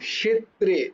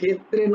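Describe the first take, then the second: First: It begins with a 'k' followed by 'sh'. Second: It begins with a plain Bengali-style 'kh' sound. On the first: The speaker calls it right. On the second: The speaker calls it wrong.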